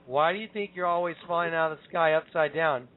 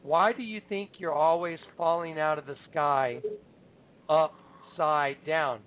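First: Said in the usual way. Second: Slow, deliberate delivery with long pauses; measured, weighty quote, pausing before "upside down"; the Lord's words. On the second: Retold or imitated. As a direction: draw out "upside down" word by word. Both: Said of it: "I heard the Lord say to me".

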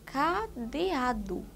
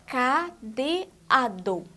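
First: "cadeado" slowly, final o said as u; spoken ending DU. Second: "Cadeado" in slow separate syllables, final full o; spelled ending DO. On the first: Teacher before drawing attention to the sound, ending said du. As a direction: say "cadeado" as ca-de-a-du, drawn out. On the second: Teacher asking for attention to the sound, syllables ending do. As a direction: say "Cadeado" as ca, de, a, do, not du. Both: Shown as a demonstration. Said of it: "Prestem bastante atenção no som".

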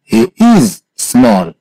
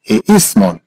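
First: Broken-up model. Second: Said in the usual way. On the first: Shown as a demonstration. Teacher recaps "he is small" for a student, in pieces. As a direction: split it, lifting "he is" and dropping on "small".

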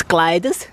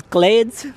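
First: "Gleides" in two syllables, "KLAI-des"; corrected pronunciation. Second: "Glades" with one long "ay" vowel; mispronounced name. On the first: Shown as a demonstration. Visitor repeating local's correction, careful pronunciation of "Gleides". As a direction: say "Gleides" with an "eye" vowel and "-des" ending. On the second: Real, not acted. Visitor reading the cinema sign, mispronouncing "Glades". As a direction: say "Glades" like the English word. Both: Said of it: "It's Gleides".

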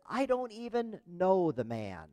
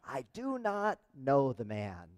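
First: Higher, drawn-out protest; insistent denial. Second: Slow, deliberate, word by word; emphatic denial. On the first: Peter denying to a servant girl that he knows Jesus, insistent. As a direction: deny it slowly, pitched up. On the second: Peter denying he knows Jesus, slow and emphatic. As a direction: space out each word of the denial. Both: Retold or imitated.

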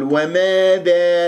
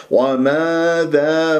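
First: وماذا bent into "wemeedhee"; faulty smiling-lipped وماذا; wrong tilted alifs. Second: وماذا with two long open "aa" vowels; slow chanted "wamaadhaa"; natural madd. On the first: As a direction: front both long vowels of وماذا to "eh". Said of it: "لا تمل الألفات". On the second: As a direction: stretch both alifs of وماذا evenly and openly. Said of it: "مدود طبيعية". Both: Shown as a demonstration.

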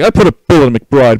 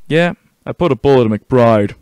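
First: Much louder mock re-enactment; hammed-up boast. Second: Louder, steady game-character delivery; in-character report. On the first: Player re-enacting the shooting, loud hammed-up boast. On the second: Acted. Soldier reporting to colonel, firm in-character voice.

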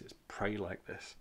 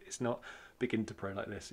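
First: "pray" leaned on as the right version; stress on pray. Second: "begin" leaned on as the wrong version; stress on begin. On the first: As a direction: put the weight on "pray" to correct it. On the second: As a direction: hit the word "begin" to show the mistake. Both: Shown as a demonstration.

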